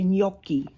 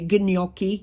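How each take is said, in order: First: The gn is said as one 'ny' sound. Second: The gn is said with a separate hard g. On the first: The speaker calls it right. "you say" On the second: The speaker calls it wrong. "You don't say"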